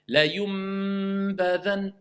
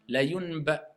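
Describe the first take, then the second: First: A clear m is pronounced before the b. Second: The n runs straight into the b, blurred. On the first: The speaker calls it right. "on transforme le nom en mime" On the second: The speaker calls it wrong. "la yunba, l'enchaîner avec le ban, on entend un mime"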